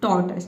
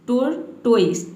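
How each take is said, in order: First: The word ends with a short 'tus' sound. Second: The word ends with a full 'toys' sound. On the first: The speaker calls it right. "इसको पढ़ना है आपको टॉर्टस" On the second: The speaker calls it wrong. "कई student इसको पढ़ते हैं टोर्टोइस"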